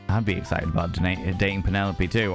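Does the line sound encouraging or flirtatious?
flirtatious. It is said in a flirtatious, suggestive tone. The speaker is personally interested in the date. "Is that is that flirtation?"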